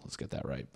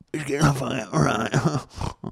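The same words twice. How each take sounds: First: Hushed, half-voiced aside to himself; quietly fixing his own mistake, muttered under his breath; muttered self-correction. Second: Slow, drawn-out, higher mock pronouncement; mock-formal correction. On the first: Real, not acted. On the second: Podcaster mocks his own slip, slow and hammed up. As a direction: ham up correcting himself like a stuffy teacher.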